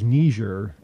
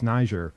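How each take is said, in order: First: The word is said with the British pronunciation. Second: The word is said with the American pronunciation. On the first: "the British pronunciation is Niger" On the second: "and the American, I believe, ... is Niger"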